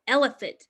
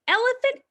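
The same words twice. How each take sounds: First: Settled falling elephant; falling answer. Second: Elephant called high with a rising tune; sing-song rising Elephant. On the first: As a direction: drop elephant down to close the call. Second call of the refrain. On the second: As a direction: lift Elephant up like a question. First call of the refrain. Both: Acted.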